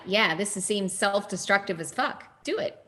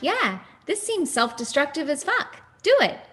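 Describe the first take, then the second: First: It is said in a natural speaking voice. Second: It is said in a higher-pitched character voice.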